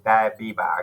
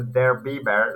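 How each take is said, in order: First: The R sounds are dropped from the phrase. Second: The R sounds are pronounced in the phrase. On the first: "you can just say da Biba, okay? Because R is not using there" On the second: "it will be like the their [name] like this"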